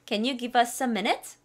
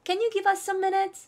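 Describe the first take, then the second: First: Slow, minute rising; slow model line. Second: Much higher and slow, bright model; higher, slow second take. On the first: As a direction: say it slowly for students to repeat. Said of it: "따라하시고요". (따라 하도록 천천히) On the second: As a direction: lift it way up the second time. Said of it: "다시 한번". (두 번째는 훨씬 높게 천천히) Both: Shown as a demonstration.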